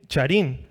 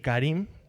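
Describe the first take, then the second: First: The word begins with a 'ch' sound. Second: The word begins with a 'k' sound. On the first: It follows the spelling of the letters. "digo charín para que sepan la- las letras" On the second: It is roughly how the word is really pronounced. "Más o menos se pronuncia así"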